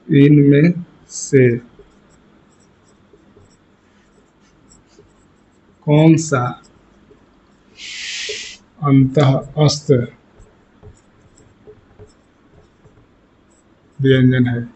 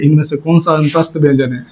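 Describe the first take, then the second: First: Very slow, long gaps between word groups; drawn-out words, pausing for writers; question dictation. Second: Said in the usual way. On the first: Shown as a demonstration.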